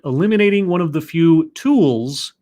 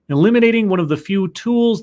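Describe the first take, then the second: First: The word tools is strongly emphasized. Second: The word tools gets no special emphasis.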